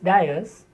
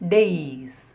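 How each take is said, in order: First: The first syllable sounds like 'die'. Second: The first syllable sounds like 'day'. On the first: The speaker calls it wrong. "mostly mispronounced as dias" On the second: The speaker calls it right. "but actually it is days. Day and then is"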